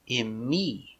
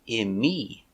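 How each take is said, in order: The two takes are said the same way.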